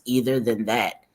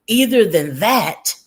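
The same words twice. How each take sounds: First: Said in the usual way. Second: "Either than that" punched high and loud; inserted catchphrase. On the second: Retold or imitated. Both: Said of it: "one of Wine Trash's sayings".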